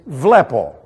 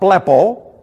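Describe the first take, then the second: First: The word begins with a v sound. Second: The word begins with a b sound. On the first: The speaker calls it right. "it's vlepo" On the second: The speaker calls it wrong. "It is not blepo"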